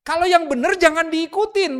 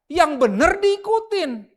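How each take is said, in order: First: Said in the usual way. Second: "diikutin" stretched slowly and stressed high; slow emphatic correction. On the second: Shown as a demonstration. Preacher corrects the congregation, slow emphatic stress on "diikutin". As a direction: lay each word down slowly, stress "diikutin".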